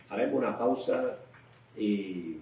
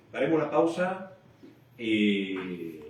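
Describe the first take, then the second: No difference in how they are said.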